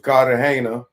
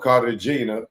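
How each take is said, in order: First: The name is said the Spanish way. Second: The name is said the English way. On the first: This is how it is said in Colombia. "I know it is Cartagena from going to Colombia" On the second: This is how some listeners say it. "as some of y'all may pronounce it"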